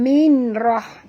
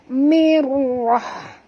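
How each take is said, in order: First: The n is pronounced separately before the r. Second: The n merges fully into the r sound. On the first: The speaker calls it wrong. "bukan minrah" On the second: The speaker calls it right. "masuk tanpa dengung"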